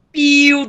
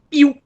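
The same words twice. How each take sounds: First: PIO held out long, like a sustained bird peep; drawn-out PIO. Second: PIO cut short, like a quick bird peep; quick little PIO. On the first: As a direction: stretch the vowels in PIO. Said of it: "ele é mais longo". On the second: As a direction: say PIO as one brief chirp. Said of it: "bem curtinho". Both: Shown as a demonstration.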